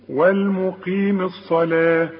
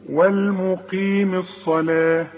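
No difference in how they are said.

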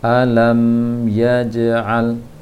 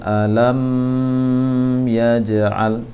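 First: The m is short with no nasal hum. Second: The m is held with a nasal hum. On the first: The speaker calls it right. "sekadar pengucapan mim sukun saja" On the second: The speaker calls it wrong. "jangan didengungkan, jangan alam yaj'al, itu keliru"

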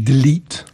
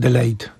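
First: The second syllable has an 'ee' vowel. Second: The second syllable has an 'ay' vowel. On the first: The speaker calls it right. "it should be delete" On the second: The speaker calls it wrong. "Not delayed"

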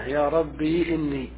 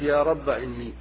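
First: The word ends in a long i vowel. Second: The word ends in a short a vowel. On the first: "إثبات الياء ساكنة" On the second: "حذف الألف"

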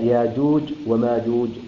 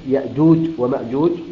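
First: A long vowel replaces the glottal stop. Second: A glottal stop follows the first vowel.

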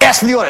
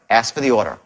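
First: It is said in a pushy, forceful tone. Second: It is said in a calm, gentle tone. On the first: The speaker calls it wrong. "Calmly, not like" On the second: The speaker calls it right. "Calmly and elegantly, with compassion and a tone that knows"

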